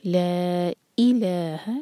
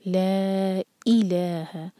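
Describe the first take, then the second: First: Slow, ई cut off sharply in इलाहा; clipped i. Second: Very slow, ला held four beats. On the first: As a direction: stop the ई with a clean cut. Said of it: "cut off sound के साथ ई". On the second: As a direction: stretch ला long before इलाहा. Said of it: "ला चार हरका है". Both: Shown as a demonstration.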